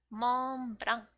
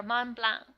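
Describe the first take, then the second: First: "Mont Blanc" with a separate extra syllable closing "Blanc"; Japanese-style pronunciation. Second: "Mont Blanc" with an open nasal ending; French-style pronunciation. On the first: Tutor reading the dessert's name off the page, "Mont Blanc" Japanese-style. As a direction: say "Mont Blanc" as a Japanese loanword, ending on a hard k sound. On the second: Tutor giving the dessert's other name, "Mont Blanc" French-style with silent c. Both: Shown as a demonstration. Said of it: "or Mont Blanc".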